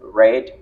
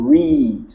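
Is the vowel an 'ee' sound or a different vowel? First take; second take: different vowel; ee. First: The vowel is not an 'ee' sound. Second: The vowel is a long 'ee' sound. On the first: It is the past-tense verb. "je l'ai prononcé read parce que le verbe est au simple past" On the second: It is the present-tense verb. "le digramme E A est prononcé I"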